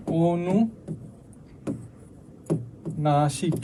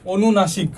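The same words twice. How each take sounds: First: অনুনাসিক stretched very slowly and softer, sounded through the nose, rising at the end; slow, soft nasal sounding of অনুনাসিক; drawn-out nasal demo. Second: Said in the usual way. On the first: Shown as a demonstration. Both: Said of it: "অনুনাসিক বলতে কি বোঝাচ্ছে".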